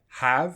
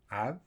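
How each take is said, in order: First: The word is said in its full form. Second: The word is said in a weak, reduced form. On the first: "we have have and have" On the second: "We could even drop the H"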